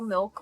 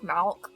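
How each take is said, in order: First: The word is said with its usual vowel. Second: The word is said with a distorted vowel. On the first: The speaker calls it right. "if I'm actually talking about milk, I I pronounce it correctly" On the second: The speaker calls it wrong. "I always call milk Malk because it's it's hilarious"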